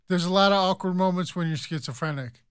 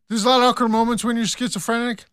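First: It is said slowly, words spaced out. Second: It is said quickly, words rushed together.

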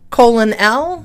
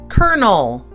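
First: It sounds like colon followed by L. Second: It sounds like kernel, with an R sound. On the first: The speaker calls it wrong. "It looks like" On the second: The speaker calls it right. "but we pronounce it colonel. Colonel, like there's a R in there"

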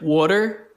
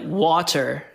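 First: It sounds like 'wooder', rhyming with odor. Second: It is said in a plain general American way. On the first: "in like Philly, everyone's like water, like odor" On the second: "we say like water in Florida"

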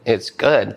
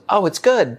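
First: It sounds flat and dry. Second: It sounds light and cheerful.

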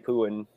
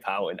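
First: The first vowel sounds like 'oo'. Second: The first vowel sounds like 'ow'. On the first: The speaker calls it wrong. "I always say Pooin" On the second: The speaker calls it right. "It's Powins"

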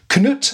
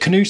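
First: The name sounds like one syllable, K-nut. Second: The name sounds like two syllables, Canute. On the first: "your pronunciation looks a bit closer to the way it's spelt" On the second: "I said Cnut"

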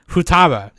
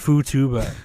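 First: The middle vowel sounds like 'a'. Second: The middle vowel sounds like 'u'. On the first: The speaker calls it right. "it's Futaba" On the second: The speaker calls it wrong. "Why did they write Futuba?"

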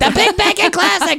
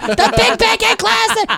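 First: It is said at normal speed. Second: It is said slowly and drawn out.

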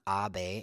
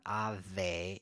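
First: The middle consonant is a hard b with a puff. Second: The middle consonant is a v with teeth on lip. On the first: "It's not abe" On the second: "and it's not ave"

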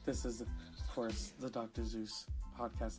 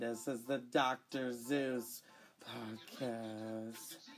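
First: It is said in his normal voice. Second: It is said in a gremlin voice.

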